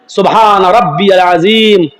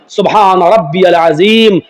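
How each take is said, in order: The two takes are said the same way.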